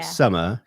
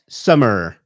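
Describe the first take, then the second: First: It is said in a standard accent. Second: It is said in a strong Bristol accent. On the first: This is how the child does not say it. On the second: This is how the child says it. "she goes summer"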